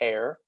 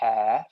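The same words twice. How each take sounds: First: It is said with an American accent. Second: It is said with a British accent.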